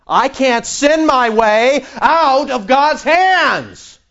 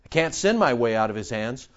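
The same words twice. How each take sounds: First: High, loud, drawn-out preaching cry; triumphant declaration. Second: Quiet assurance. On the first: Preacher proclaims his security in God, loud and triumphant. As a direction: belt it out slowly, word by word. Same line repeated at full force. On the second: Preacher states his security in God, quietly assured. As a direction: lower and softer, understated. First take, before emphatic repeat. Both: Real, not acted.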